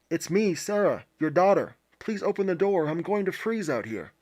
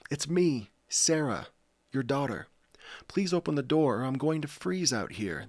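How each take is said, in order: First: The voice sounds muffled behind a hand. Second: The voice sounds clear and unobstructed.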